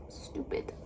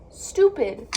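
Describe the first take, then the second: First: Whispered stupid under the breath; frustrated whisper; muttered stupid. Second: Stupid blurted out loud; frustrated loud outburst. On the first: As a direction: hiss stupid quietly to yourself. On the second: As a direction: snap out stupid at full volume. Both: Real, not acted. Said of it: "I'm so upset".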